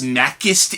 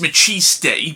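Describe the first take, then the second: First: The middle consonant is a hard k sound. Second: The middle consonant is a soft sound. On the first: The speaker calls it wrong. "I kept pronouncing it as Makist in Hell because I didn't know how to properly say" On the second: The speaker calls it right. "I'm pretty sure it's Machiste"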